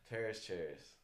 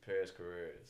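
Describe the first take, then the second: First: The surname is said as one short syllable. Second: The surname is said with two syllables. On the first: The speaker calls it wrong. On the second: The speaker calls it right.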